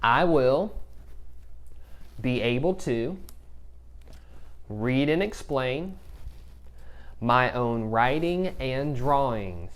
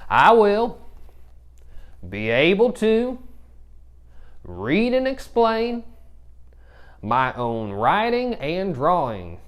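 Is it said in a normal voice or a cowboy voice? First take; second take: normal; cowboy. First: It is said in a normal voice. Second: It is said in a cowboy voice.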